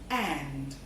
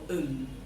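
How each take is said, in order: First: The word is said fully with its clear vowel. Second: The word is reduced, with vowel weakened and no final d.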